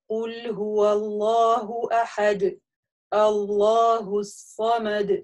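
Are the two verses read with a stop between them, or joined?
stop. There is a stop between the two verses.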